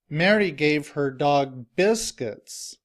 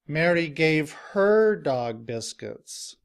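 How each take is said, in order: First: The stress falls on the word biscuits. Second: The stress falls on the word her. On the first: Biscuits, not something else, are what the dog receives. "the stress is now on the word biscuits" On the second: It is her own dog that receives them. "the stress is now on the word her"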